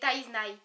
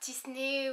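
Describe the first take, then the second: First: The name is pronounced like Taiznai. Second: The name is pronounced like Tisney. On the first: The speaker calls it right. "C'est Taiznai" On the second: The speaker calls it wrong. "c'est pas Tisney"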